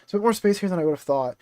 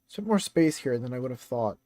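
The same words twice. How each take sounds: First: It is read in a female character voice. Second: It is read in a male character voice. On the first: The speaker calls it right. "this is Yumi talking" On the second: The speaker calls it wrong. "I don't know why I'm doing his voice"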